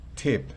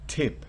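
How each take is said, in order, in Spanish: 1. La t tiene una ráfaga brusca de aire. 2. La t tiene una ráfaga brusca de aire.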